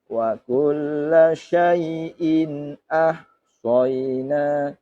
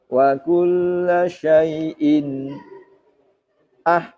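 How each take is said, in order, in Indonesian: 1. Syai'in tersambung jelas ke ahsayna. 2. Suara berhenti sebentar setelah syai'in. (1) "jadi cukup" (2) "Saktah bagaimana? Contohnya begini"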